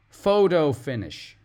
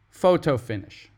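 First: The middle T sounds like a soft D. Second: The middle T is a clear T sound. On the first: "we pronounce the T, that middle T, like a D" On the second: "Or if you want to pronounce the T"

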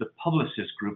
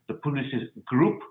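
First: The name is said with an English accent. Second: The name is said with a French accent.

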